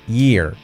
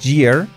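First: The word begins with a soft y sound. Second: The word begins with a j-like sound. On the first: The speaker calls it right. "pero sería year" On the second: The speaker calls it wrong. "que no es year. No sería una J"

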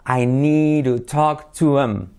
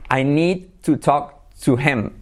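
First: Words run together, T flapped, H dropped. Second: Each word is said separately, with a full H.

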